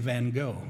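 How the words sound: The name is said in an American way. "here in the U.S., we usually say Van Gogh"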